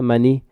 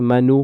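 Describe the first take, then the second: First: The word ends with an added i vowel. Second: The word ends with an added u vowel.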